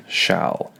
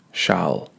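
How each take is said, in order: First: Shall. breathed unvoiced, loose and relaxed; unstressed, whispered Shall. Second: Said in the usual way. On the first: Shown as a demonstration. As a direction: let Shall. fall out as a whisper. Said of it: "Is it relaxed?". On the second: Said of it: "What type of sound does shall make?".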